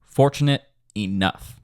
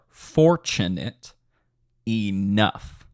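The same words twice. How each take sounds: First: The phrase is said at a normal speed. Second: The phrase is said a little more slowly.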